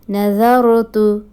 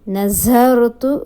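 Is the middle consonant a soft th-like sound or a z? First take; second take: soft th; z. First: The middle consonant is a soft th-like sound. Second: The middle consonant is a plain z sound. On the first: The speaker calls it right. "It will be the" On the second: The speaker calls it wrong. "wrong pronunciation"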